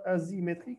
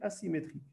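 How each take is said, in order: First: The s is sounded like a z. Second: The s is sounded like an s. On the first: The speaker calls it wrong. "on ne lit pas asymétrique" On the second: The speaker calls it right. "On prononce bien S, même si je n'ai qu'un seul S ici"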